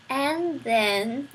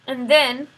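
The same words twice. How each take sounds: First: Roscuro coaxes "And then" gently, at his usual level; a lightly voiced rat coaxing "And then"; Roscuro encouraging. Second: The prisoner pushes out "And then", louder; a lightly voiced prisoner stalling on "And then"; prisoner's halting prompt. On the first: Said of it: "encouraged Roscuro". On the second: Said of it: "the man said". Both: A narrator's reading.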